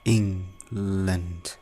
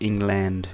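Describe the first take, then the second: First: The stress is on the first syllable. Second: The stress is on the second syllable. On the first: The speaker calls it right. "इङमा stress हुन्छ" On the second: The speaker calls it wrong. "Just हेर्दाखेरि England भयो होइन"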